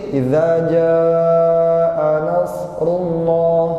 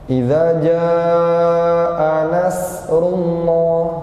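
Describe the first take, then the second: First: The s sound is heavy, with less hissing. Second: The s sound is thin, with full hissing. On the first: "Kalau shad gimana? Lebih sedikit"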